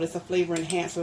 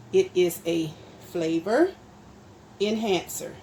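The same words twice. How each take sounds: First: Said in the usual way. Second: FLAVOR and ENHANCER set apart by pauses, loud; emphatic correction. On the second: Real, not acted. Cook correcting those who call it salt, emphatic and spaced on "flavor enhancer". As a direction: spell out "flavor ... enhancer" word by word, firmly.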